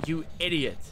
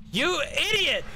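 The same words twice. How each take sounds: First: Said in the usual way. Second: Idiot yelped far higher; mock shrill insult; high squeaky idiot. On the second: Shown as a demonstration.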